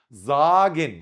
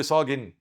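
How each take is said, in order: First: زاجن with a voiced z at the start, stretched and loud; German Z onset. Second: صاجن wrongly started with an s sound; mistaken S onset. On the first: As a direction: say زاجن with a buzzing z, not s. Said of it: "الاس في أول كانت تتي زد". (نطق زاجن بحرف الزاي في أولها) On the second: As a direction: say صاجن with s instead of the German z. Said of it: "صاجن ده في الفرن يا أستاذ". (نطق صاجن غلط بالصاد بدل الزاي) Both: Shown as a demonstration.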